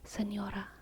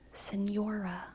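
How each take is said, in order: First: The R is a quick, light tap. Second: The R is a soft English-style R. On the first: The speaker calls it right. "It's really just a, a quick, light D" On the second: The speaker calls it wrong. "because they believe that they can't roll their R's"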